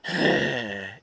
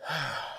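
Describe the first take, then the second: First: Pointed, put-upon huff; kids' annoyed sigh. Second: Soft, easy exhale; relaxing sigh. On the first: Retold or imitated. Husband imitating kids asked to help, annoyed huff. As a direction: sigh like a kid given a chore. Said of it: "They do it when you're like". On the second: Shown as a demonstration. Husband showing his no-reason sigh, soft and relaxing. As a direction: let out a sigh just to relax. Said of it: "just relaxing".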